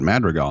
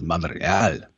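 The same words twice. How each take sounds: First: The name is said with an English pronunciation. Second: The name is said with a Spanish pronunciation. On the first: The speaker calls it wrong. "he had been saying his name wrong" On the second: The speaker calls it right. "no, it is Madrigal"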